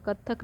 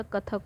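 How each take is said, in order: First: कत्थक with a doubled, held t-th; wrong form. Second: कथक with a single short थ; corrected form. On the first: Teacher rejecting the everyday form, कत्थक with doubled consonant. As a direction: say कत्थक with a stop before थ. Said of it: "कत्थक नहीं होता". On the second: Teacher giving the correct form, कथक with single थ. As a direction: say कथक as three light sounds, क-थ-क. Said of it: "क, थ, क". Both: Shown as a demonstration.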